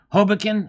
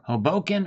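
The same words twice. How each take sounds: First: The stress is on the first syllable. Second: The stress is on the second syllable. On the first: "on the ho" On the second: "or the bo"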